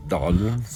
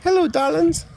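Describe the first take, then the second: First: Darlings dropped low and soft with a rising end. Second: High, rising, camp Hello darlings; sing-song diva greeting, way up high; campy drag queen. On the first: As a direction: Darlings said deep and quiet, lifting at the end. Repeats the word much lower. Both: Acted.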